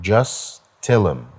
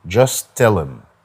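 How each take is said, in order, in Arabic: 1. حرف t بيتشال و'them' بتبقى 'em'. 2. حرف t بيتشال و'them' بتبقى 'em'.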